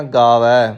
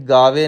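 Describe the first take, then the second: First: ਗਾਵੈ ending in an open "ae" vowel. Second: ਗਾਵੇ ending in a narrow "ay" vowel; wrong vowel ending. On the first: Teacher correcting learners, ਗਾਵੈ with open "ai" ending. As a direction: say ਗਾਵੈ with a wide, open "-vai". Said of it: "ਦੁਲਾਵਾਂ ਲੱਗੀਆਂ ਹੋਈਆਂ". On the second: Teacher showing learners a mistake, ਗਾਵੇ with closed "e" ending. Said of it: "ਗਾਵੇ ਨਹੀਂ ਕਹਿਣਾ". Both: Shown as a demonstration.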